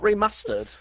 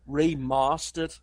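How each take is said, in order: First: The word is said in a plain, ordinary way. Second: The word is said in a posh, drawn-out way. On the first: "Not remastered" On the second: "very, very upper class"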